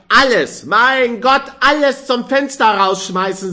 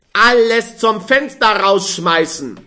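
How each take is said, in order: First: Even higher, louder exultant cry; jubilant. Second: Loud, high, rejoicing shout; boisterous tipsy cheer on Alles; jubilant. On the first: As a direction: crow it with drunken glee. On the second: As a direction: cheer it out drunk and happy. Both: A narrator's reading. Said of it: "jubelte der Früchtehändler".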